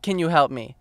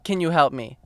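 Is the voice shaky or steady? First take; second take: shaky; shaky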